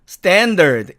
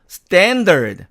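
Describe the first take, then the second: Both takes have the same delivery.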